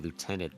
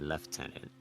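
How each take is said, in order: First: It is said with an American pronunciation. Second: It is said with a British pronunciation. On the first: "they don't say lieutenant" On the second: "They say lieutenant"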